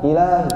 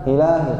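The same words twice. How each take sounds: The two takes are said the same way.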